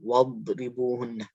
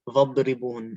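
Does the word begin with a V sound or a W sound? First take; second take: W; V. First: The word begins with a W sound. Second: The word begins with a V sound. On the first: The speaker calls it right. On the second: The speaker calls it wrong.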